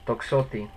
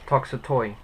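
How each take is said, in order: First: The word ends with an 'ee' sound. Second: The word ends with an 'oy' sound. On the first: The speaker calls it right. "It's actually toxoti" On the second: The speaker calls it wrong. "if you were to say it how it's spelled"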